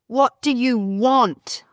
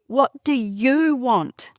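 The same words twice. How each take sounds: First: The stress is on the word want. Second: The stress is on the word you.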